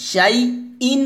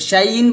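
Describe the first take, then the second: First: The word has a glottal catch in the middle. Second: The word flows without a glottal catch. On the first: The speaker calls it right. "শাইইন বলতে হবে, হামজা এটা" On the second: The speaker calls it wrong. "শাইইন বলা যাবে না"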